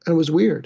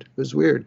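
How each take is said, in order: First: It was weird, WEIRD high and loud; emphatic. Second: Said in the usual way. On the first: Shown as a demonstration. Telling the audience how strange the hospital was, weird punched high and loud. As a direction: land hard on the word weird. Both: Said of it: "It was weird 'cause".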